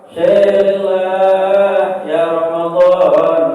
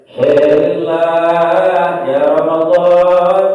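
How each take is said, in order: The two takes are said the same way.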